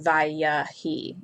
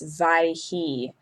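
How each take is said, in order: First: A short vowel is heard after the first syllable. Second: No vowel is heard after the first syllable. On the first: The speaker calls it wrong. "and not Vayahi" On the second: The speaker calls it right. "that's why it's Vaihi"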